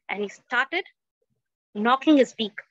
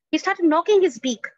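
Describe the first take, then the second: First: Said in the usual way. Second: Louder, higher, driving the words home; emphatic louder retelling. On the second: A narrator's reading. Storyteller repeats the knocking line, louder and emphatic. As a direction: hammer the line to show the struggle.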